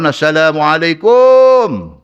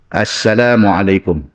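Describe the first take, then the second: First: The final syllable 'kum' is said with a lengthened vowel. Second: The final syllable 'kum' is said short. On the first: The speaker calls it wrong. "Tang tu dah salah dah" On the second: The speaker calls it right. "praktis sebut bagi betul"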